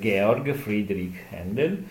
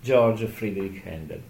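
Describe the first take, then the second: First: The name is pronounced the German way. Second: The name is pronounced the English way. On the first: "la pronuncia tedesca" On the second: "inglesizzata, diciamo così, anglizzata"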